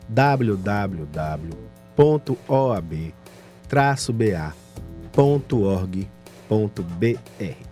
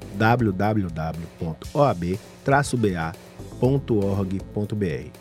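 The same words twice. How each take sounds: First: It is said very slowly. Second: It is said at normal speed.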